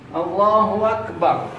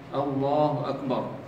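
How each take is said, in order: First: A w sound is joined before 'akbar'. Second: No w sound is joined before 'akbar'. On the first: The speaker calls it wrong. "Jadi akbar dia baca wakbar" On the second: The speaker calls it right. "harus diucapkan dengan betul, dengan jelas"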